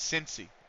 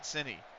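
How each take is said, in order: First: The word is pronounced in a local American way. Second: The word is pronounced in a foreign-sounding way. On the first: This is how locals say the name. The speaker calls it right. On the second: This is how an outsider says the name. The speaker calls it wrong.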